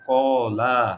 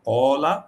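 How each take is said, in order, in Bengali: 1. শেষের 'la' স্বরটি টেনে দীর্ঘ। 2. শেষের 'la' স্বরটি হ্রস্ব।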